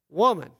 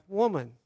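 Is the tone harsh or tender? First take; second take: harsh; tender. First: It is said in a harsh, cold tone. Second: It is said in a warm, tender tone.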